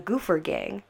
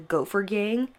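First: The first syllable sounds like 'goo'. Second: The first syllable sounds like 'go'. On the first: The speaker calls it right. "they were actually pronounced as the Goofer Gang" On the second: The speaker calls it wrong. "I keep wanting to say the Gopher Gang"

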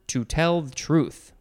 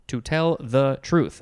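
First: The words are slurred and not clearly articulated. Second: The words are clearly and carefully articulated. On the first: The speaker calls it wrong. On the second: The speaker calls it right.

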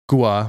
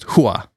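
First: The name begins with a hard G sound. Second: The name begins with an H sound. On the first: This is how the written name looks. The speaker calls it wrong. "it kind of looks like it would be Gua" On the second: This is the likely Cuban pronunciation. The speaker calls it right. "it might actually be pronounced Hua"

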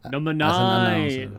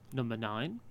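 First: Said loudly, in a big announcer voice. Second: Said flatly and calmly, like a looped recording. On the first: "say number nine as though I'm" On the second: "like I'm the Beatles"

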